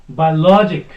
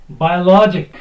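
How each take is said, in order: The two takes are said the same way.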